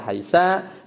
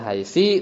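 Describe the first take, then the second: First: The word ends in an a vowel. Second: The word ends in an i vowel. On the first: "haitsa bil fathi" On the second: "haitsi bil kasri"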